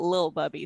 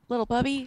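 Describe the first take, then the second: First: The first word is shortened to one syllable. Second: The first word is said with both full syllables. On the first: "not lil Bubby" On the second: "I use the full syllable of little Bubby"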